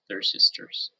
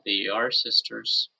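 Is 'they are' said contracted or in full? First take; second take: contracted; full. First: They and are are joined into one syllable. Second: They and are are said as two full words. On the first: "just say they're sisters" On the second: "instead of saying they are sisters"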